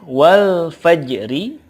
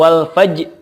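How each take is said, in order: First: The word ends with a vowel after r. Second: The word ends on j with no r.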